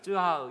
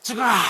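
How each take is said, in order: First: It is said mildly, without strain. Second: It is said intensely, like a tearing cry.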